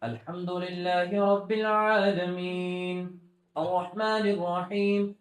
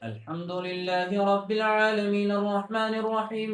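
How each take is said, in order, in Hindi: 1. आयत खत्म होने के बाद थोड़ी देर रुकता है। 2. आयत के बाद बिना रुके आगे चलता है। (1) "वक्फ यानी रुकने की जगह" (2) "अब इसी को मिलाकर पढ़ना है"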